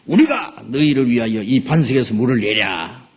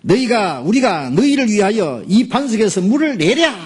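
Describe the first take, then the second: First: Said in the usual way. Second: Angry Moses. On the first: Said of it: "그렇게 해야지". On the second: Acted. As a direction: hurl the question in rage. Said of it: "모세 화가 나가지고요".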